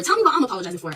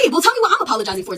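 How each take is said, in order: First: Said in the usual way. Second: Louder and higher, demanding an answer; insist, voice up in frustration; heated demand to know why; exasperated demand. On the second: Retold or imitated. Demanding explanation.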